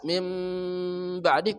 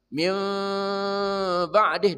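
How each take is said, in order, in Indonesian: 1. Mimnya jelas, kedua bibir rapat. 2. Mimnya samar, bibir sedikit terbuka. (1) "Mimnya jelas. Mim ba'di kedua mulutnya rapat" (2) "dibuka mulut sedikit menjadi mim ba'di ya. Mim ba'di. Dan ini yang lebih bagus"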